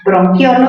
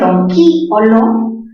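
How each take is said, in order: First: The stress falls on the single syllable quio. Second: The stress falls on the vowel i, separate syllable. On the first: "grave terminada en vocal" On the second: "esa cerrada tiene la mayor fuerza de voz"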